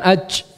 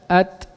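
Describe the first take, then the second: First: The final consonant is loose with too much breath. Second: The final consonant is pressed firmly and released crisply. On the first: The speaker calls it wrong. "bukan aj, aj, enggak" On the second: The speaker calls it right. "Nah, bunyinya seperti itu"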